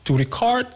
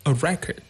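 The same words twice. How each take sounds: First: Record said as re-CORD, rising; verb stress. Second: Record said as REC-ord; noun stress. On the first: Teacher contrasting verb with noun, second-syllable stress. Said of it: "the stress is on the second syllable". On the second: Teacher contrasting noun with verb, first-syllable stress. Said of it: "as a noun". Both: Shown as a demonstration.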